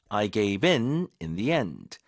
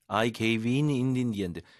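First: The first "in" is clearly stressed. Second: The first "in" is not stressed.

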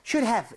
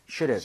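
First: It is said slowly and stiffly. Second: It is said quickly and smoothly.

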